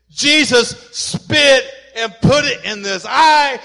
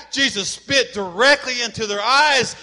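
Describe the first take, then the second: First: Emphatic preaching shout. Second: Said in the usual way. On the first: Real, not acted. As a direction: drive it home to the congregation. Preacher stresses the spit.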